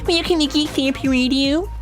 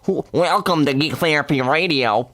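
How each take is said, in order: First: The voice is put on very high-pitched. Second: The voice is put on as a nerdy geek. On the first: The speaker calls it wrong. "Why is my voice so high as a geek?" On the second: The speaker calls it right. "Can I just sound like a geek for a second?"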